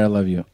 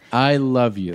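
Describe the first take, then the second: First: It sounds flat and half-hearted. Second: It sounds warm and sincere.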